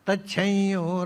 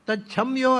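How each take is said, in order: First: The m becomes a nasalized vowel before y. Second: The m is pronounced as a full consonant. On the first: The speaker calls it right. "ಅನುನಾಸಿಕ ಸ್ವರವನ್ನು" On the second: The speaker calls it wrong. "ಅಲ್ಲ"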